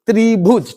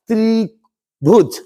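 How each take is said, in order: First: Said in the usual way. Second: त्रिभुज split in two, त्रि... भुज, drawn out; very slow त्रि, pause, भुज; slow sounding-out. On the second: Shown as a demonstration. Teacher giving students the Hindi for triangle, slowly split.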